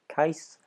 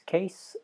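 First: The vowel sounds like the one in 'dice'. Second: The vowel sounds like the one in 'day'. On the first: The speaker calls it right. "the more accurate pronunciation as an Arabic name would be more rhyming with mice or dice" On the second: The speaker calls it wrong. "the pronunciation the others are going with is Case"

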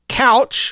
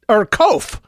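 First: It sounds like the word couch. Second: It rhymes with loaf. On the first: "like a piece of furniture" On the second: "to rhyme with loaf"

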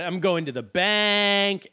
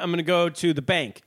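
First: The last word is drawn out long. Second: The last word is said at normal length.

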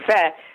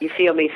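First: The phrase is squeezed into one syllable. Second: The phrase is said in full.

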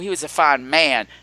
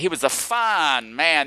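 First: It is said in a plain, sincere tone. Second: It is said in a knowing, suggestive tone. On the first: He was a very good person. "that meant that he was a very good person" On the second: He was sexually impressive. "that meant he had a huge dick and he knew how to use it"

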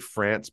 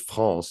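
First: The word is said with an English pronunciation. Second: The word is said with a French pronunciation. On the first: "I say France" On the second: "it really is France if I'm French"

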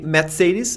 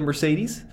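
First: The name is pronounced the German way. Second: The name is pronounced the English way. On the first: "do the same with all the other German brands" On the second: "instead of Mercedes"

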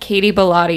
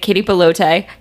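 First: The surname does not rhyme with 'elote'. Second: The surname rhymes with 'elote'. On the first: This is how the speaker says the name. "I'm like Katie Bellotti" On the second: Someone else always says the name this way. "she is always like Katie Bellote"

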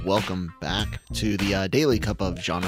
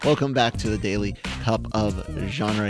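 First: The greeting is delivered in a flat, low-energy way. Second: The greeting is delivered in a lively, excited way. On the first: The speaker calls it wrong. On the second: The speaker calls it right.

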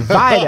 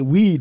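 First: The name begins with a V sound. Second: The name begins with a W sound. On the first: The speaker calls it right. "The W is pronounced as a V" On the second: The speaker calls it wrong. "I see a W and an E and a D. I say weed"

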